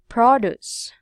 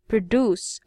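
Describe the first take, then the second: First: The stress is on the first syllable. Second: The stress is on the second syllable. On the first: It is used as the other word class. "this one is produce" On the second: It is used as a verb. "the second syllable must be here on the verb"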